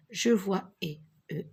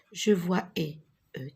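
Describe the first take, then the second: No difference in how they are said.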